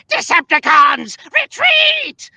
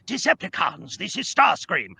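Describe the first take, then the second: First: High, loud screeching battle command; drawn-out high-pitched villain yell; Chris Latta's Starscream. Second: Put-on light British accent, higher than usual; restrained villain with a light British accent; Starscream. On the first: Acted. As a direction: shriek it like a cartoon villain ordering troops. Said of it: "was originally voiced by Chris Latta". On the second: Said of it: "We just want a light British accent".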